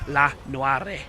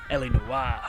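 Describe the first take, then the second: First: The first part is spoken as one syllable. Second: The first part is spoken as two letters.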